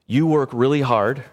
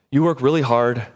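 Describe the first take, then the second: No difference in how they are said.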